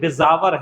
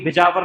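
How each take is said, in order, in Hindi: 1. बीच का व्यंजन 'z' ध्वनि है। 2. बीच का व्यंजन सादी 'j' ध्वनि है। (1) "बिजावर है, ये डॉट लगा है ना नीचे" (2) "बिजावर नहीं"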